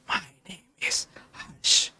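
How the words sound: The voice is breathy and whispery.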